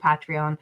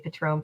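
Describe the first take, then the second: First: The word is said with three syllables. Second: The word is said with two syllables.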